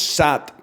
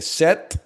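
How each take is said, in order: First: The vowel sounds like the a in cat. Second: The vowel sounds like the e in set. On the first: The speaker calls it wrong. "How is sat pronounced?" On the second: The speaker calls it right. "That's more like set"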